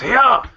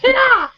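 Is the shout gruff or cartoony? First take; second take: gruff; cartoony. First: It is a gruff, realistic grunt. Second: It is a light, cartoony shout.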